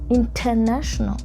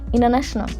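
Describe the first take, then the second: First: It is said with an African accent. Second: It is said with an American English accent. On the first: "let's turn it to my African accent" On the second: "In English, American English, they would go like international"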